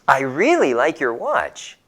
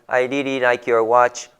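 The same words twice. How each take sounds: First: It is read with lively feeling. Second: It is read flatly, without feeling. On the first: The speaker calls it right. "we need to read with more feeling, like this" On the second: The speaker calls it wrong. "we don't read it like"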